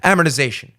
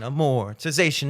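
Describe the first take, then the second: First: The stress falls heavily on the first syllable. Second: The syllables are spaced out evenly. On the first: The speaker calls it wrong. "you blow your wad on the first syllable" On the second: The speaker calls it right. "space it out"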